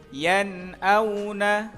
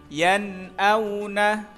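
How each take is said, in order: No difference in how they are said.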